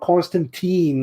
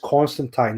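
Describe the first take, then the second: First: The last syllable rhymes with teen. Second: The last syllable rhymes with fine. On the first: The speaker calls it wrong. "not Constantine, like all these other fucking douchebags" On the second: The speaker calls it right. "it's pronounced as Constantine ... The word time rhymes with fine or line"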